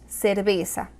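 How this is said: The c and z sound like s. This is how it is said in Latin America. "en Hispanoamérica decimos cerveza. Ambas C y Z con sonido de S"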